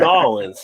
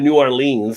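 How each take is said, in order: First: The name is run together, local style. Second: The name is said in full, tourist style. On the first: The speaker is from the area. The speaker calls it right. "You're going to Nolans" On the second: The speaker is not from the area. The speaker calls it wrong. "don't say you're going to New Orleans because then they know you're not from around there"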